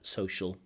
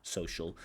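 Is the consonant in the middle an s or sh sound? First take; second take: sh sound; sh sound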